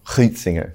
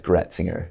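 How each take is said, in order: First: It is said with a German-style vowel. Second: It is said with an English-style vowel. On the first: "If they were actually German" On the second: "it comes into English as Gretzinger"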